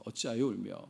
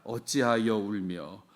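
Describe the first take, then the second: First: Said in the usual way. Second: 어찌하여 울며 stretched slowly, each syllable long; slow the whole phrase right down to show its length; drawn out. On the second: Shown as a demonstration. Preacher shows how long the formal question sounds, drawn out. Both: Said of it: "짧은 말을 두고 길게 얘기합니다".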